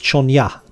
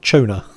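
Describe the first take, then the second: First: The middle consonant is an 'ny' sound. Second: The middle consonant is a plain 'n' sound. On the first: The speaker calls it right. "that's pronounced Chonya" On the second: The speaker calls it wrong. "not Chona"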